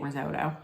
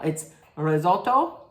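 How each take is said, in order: First: "risotto" with a long oh, ri-ZOH-doh; quick, soft American "risotto"; everyday risotto. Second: "risotto" with short o, ri-ZOL-to; insistent Italian "risotto", short middle vowel. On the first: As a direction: say "risotto" like anybody else, Americanized. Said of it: "Anybody else would say it risotto". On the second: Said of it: "If I don't say it the right way". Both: Shown as a demonstration.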